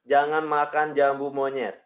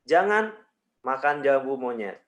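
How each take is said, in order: First: It is said with no pause at all. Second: There is a pause after "jangan". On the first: "tanpa jeda" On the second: "Saya beri jeda di jangan"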